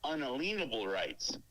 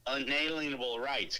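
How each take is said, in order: First: The middle of the word sounds like lien. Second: The middle of the word sounds like alien. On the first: The speaker calls it right. "It's pronounced unalienable rights. Key word being lien" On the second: The speaker calls it wrong. "they pronounce it this way, they say unalienable rights"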